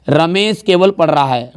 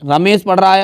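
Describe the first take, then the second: First: केवल leaned on, said slowly; slow down and press केवल; emphatic केवल in a slow line; stress on केवल. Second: Said in the usual way. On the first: Shown as a demonstration. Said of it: "मतलब जो sentence पे दबाव डाले।". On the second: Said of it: "अब केवल जैसे ही लगा यहाँ पे".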